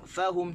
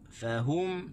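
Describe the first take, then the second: First: The stress is on the first syllable. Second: The stress is on the second syllable. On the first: The speaker calls it wrong. "kita jangan baca fahum, tak boleh tekan di fa" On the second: The speaker calls it right. "fahum tekan di ha"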